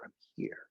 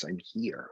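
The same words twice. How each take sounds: First: Breathy whisper of I'm here; soft whispered affirmation. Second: Said in the usual way. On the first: Shown as a demonstration. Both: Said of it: "It's a good exercise".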